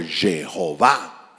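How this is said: The name is pronounced the English way.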